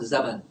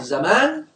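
First: زمن kept short on the second "a"; short final vowel. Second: زمان drawn out on the second "aa"; long final vowel. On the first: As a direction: pronounce زمن as za-man, no held vowel. (نطق زمن بميم مفتوحة قصيرة بلا ألف) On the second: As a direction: pronounce زمان as za-maan, with a held vowel. (نطق زمان بمدّ الألف بعد الميم) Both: Shown as a demonstration. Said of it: "فهل يقال زمن ولا زمان".

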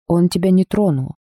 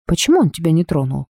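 First: Said in the usual way. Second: Touch of disbelief, quickly spoken; amazed. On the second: A narrator's reading. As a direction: ask in mild astonishment. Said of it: "изумилась Дебби".

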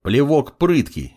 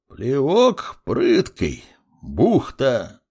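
First: Said in the usual way. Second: Very slow, stretched syllables; old clerk sounding out a name, drawn out; slow writing-along repeat. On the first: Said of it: "произнёс парень". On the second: A narrator's reading. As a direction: repeat it as your pen catches up.

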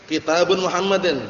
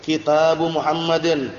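First: Kitabun pronounced with a final -un nasal before Muhammadin; wrong reading, with tanwin. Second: Kitabu said slowly, ending on a bare u with no n; correct reading, slow. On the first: Teacher reading the wrong example to students, Kitabun with tanwin. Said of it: "Kelirunya kenapa? Karena kitabun ditanwin". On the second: Teacher slowly modelling the correct form for the class. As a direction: draw out Kitabu Muhammadin carefully, no nasal after Kitabu. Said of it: "Yang benar sebelahnya itu". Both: Shown as a demonstration.

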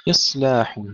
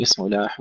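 First: إصلاح with a thick, silent, hissed ص; heavy still S. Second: إصلاح wrongly given a vowel after ص. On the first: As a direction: close the ص in إصلاح, no vowel. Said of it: "إص وليس". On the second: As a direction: show the error: add a vowel to ص in إصلاح. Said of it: "ولا نقول". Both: Shown as a demonstration.

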